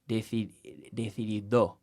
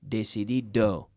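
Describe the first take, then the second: First: The D is made with the tongue against the teeth. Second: The D is made with the tongue behind the teeth. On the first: "the Spanish tongue, at the end of words especially, comes out and says" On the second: "we're treating the D at the end of the word the same as the D at the start"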